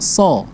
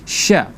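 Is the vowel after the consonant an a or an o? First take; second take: o; a. First: The vowel after the consonant is o. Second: The vowel after the consonant is a. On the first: The speaker calls it wrong. "Kadang ada yang so ya" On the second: The speaker calls it right. "Sya itu vokalannya a bukan o"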